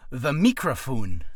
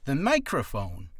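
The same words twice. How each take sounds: First: "microphone" said as "mee-cro-foon", drawn out; louder, slow "microphone" with ee and oo vowels; comic mispronunciation. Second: Said in the usual way. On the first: Shown as a demonstration. Naming the thing you speak into, "microphone" jokily mispronounced "mee-cro-foon".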